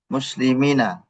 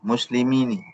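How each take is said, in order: First: The final n is followed by an a vowel. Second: The final n is followed by an i vowel. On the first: This is the common form used by most Arabs. "Kebanyakan ... Nunnya di fathah" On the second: This is a rare form used by few Arabs. "bi kasrihi dengan kasrahnya ... Itu jarang"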